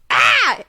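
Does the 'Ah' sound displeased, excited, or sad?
excited. The cry sounds excited.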